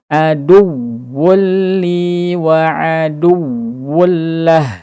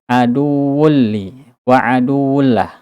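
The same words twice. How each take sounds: First: The doubled w syllable is said with raised voice. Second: The doubled w syllable is said flat, sounding drawn out. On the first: The speaker calls it right. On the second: The speaker calls it wrong. "ketika kita tidak diangkat suaranya maka terdengar seperti mad asli"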